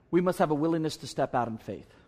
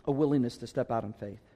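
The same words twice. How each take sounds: First: Said in the usual way. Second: Repeated lower, "A willingness to step out in faith" set apart after a long pause; lower, slow restatement. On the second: Shown as a demonstration.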